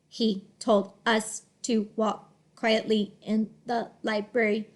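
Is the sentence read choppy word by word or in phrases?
choppy. Each word is read separately in a flat voice. The speaker calls it wrong. "the robot, he would read it like this"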